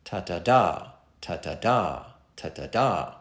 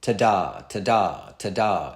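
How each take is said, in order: First: Ta-ta-DA, two light beats then stress on DA, lower; anapestic beat. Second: Ta-DA, stress on the second beat, each ta-da falling; iambic beat. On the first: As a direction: tap out an anapest, ta-ta-da ta-ta-da. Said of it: "two unstressed syllables followed by single stressed syllables". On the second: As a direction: tap out an iambic rhythm, ta-da ta-da ta-da. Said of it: "single unstressed syllables followed by single stressed syllables". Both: Shown as a demonstration.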